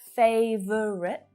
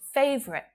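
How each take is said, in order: First: The word is said with three syllables. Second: The word is said with two syllables. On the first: The speaker calls it wrong. "instead of" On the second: The speaker calls it right. "it's faster to use two syllables"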